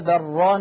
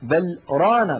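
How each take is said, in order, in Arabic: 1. تتصل الكلمتان دون فاصل. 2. سكتة قصيرة تفصل بين الكلمتين. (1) "لو وصلنا لتعين علينا أن نقول" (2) "الحكمة من هذا السكت"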